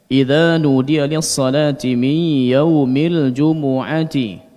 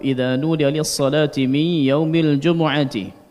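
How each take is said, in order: First: The vowel after the m is given full length. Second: The vowel after the m is clipped short. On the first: The speaker calls it right. "Diperjelas harakat pada mim" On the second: The speaker calls it wrong. "Ini mencuri harakat dhammah"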